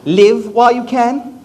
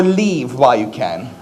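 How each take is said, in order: First: "Live" with a short i as in give, said slowly; drawn-out "Live while you can" with a clipped "Live"; slow "Live" with a short vowel. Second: "Leave" with a long ee as in leaf. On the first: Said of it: "Is she saying". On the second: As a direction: lower "Leave while you can" with a stretched "Leave". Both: Shown as a demonstration.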